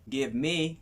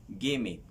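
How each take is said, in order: First: Each word is said fully and separately. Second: The words are run together into a contraction.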